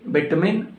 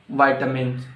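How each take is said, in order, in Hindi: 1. यह ब्रिटिश उच्चारण में बोला गया है। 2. यह अमेरिकन उच्चारण में बोला गया है। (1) "It's very common in U K" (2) "it's very common among uh, Americans"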